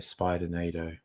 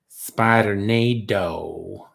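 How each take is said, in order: First: It is said in the speaker's ordinary accent. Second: It is said in a put-on Southern US accent.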